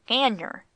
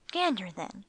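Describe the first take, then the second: First: GANDER said loud, as a correction; correcting. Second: Said in the usual way. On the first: A narrator's reading. Master corrects his wife's word, Gander stressed loudly. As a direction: put a firm, loud punch on Gander. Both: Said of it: "corrected master".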